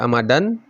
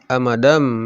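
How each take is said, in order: First: The word ends with an n sound. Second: The word ends with an m sound. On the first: The speaker calls it wrong. "tidak dibaca amadan" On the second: The speaker calls it right. "tapi amadam ya. Tanwinnya berubah menjadi mim"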